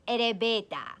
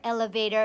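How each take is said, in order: First: It is said with Japanese katakana-style sounds. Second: It is said with plain English sounds.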